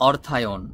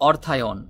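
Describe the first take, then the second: No difference in how they are said.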